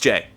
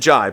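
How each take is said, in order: First: The vowel sounds like 'ay'. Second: The vowel sounds like 'eye'. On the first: The speaker calls it right. "but it's Jay" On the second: The speaker calls it wrong. "I always said Jai, J A I"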